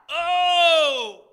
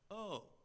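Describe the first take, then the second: First: It sounds like a pleading cry. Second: It sounds dumbfounded.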